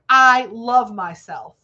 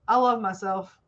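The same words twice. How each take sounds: First: It is said firmly, with conviction. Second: It is said weakly, without conviction. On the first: The speaker truly believes it. The speaker calls it right. "just like I said it. ... Say it with authority" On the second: The speaker does not really believe it. The speaker calls it wrong. "You don't say it like this"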